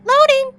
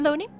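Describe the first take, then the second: First: The word is said aloud, not whispered. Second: The word is whispered.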